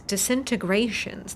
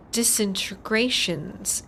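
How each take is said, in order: First: Said in the usual way. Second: Disintegrations sounded out slowly, syllable by syllable; spelling disintegrations out slowly with a rising end; careful slow pronunciation. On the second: Shown as a demonstration. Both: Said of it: "That's a harder word to say like that".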